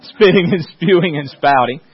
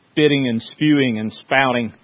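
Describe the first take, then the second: First: "spitting and spewing and spouting" louder, each word hit hard through a laugh; emphatic repeat. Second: Said in the usual way. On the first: Shown as a demonstration. Preacher repeating the angry fan bit to the laughing congregation, louder and emphatic. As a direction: relish each verb with a laugh.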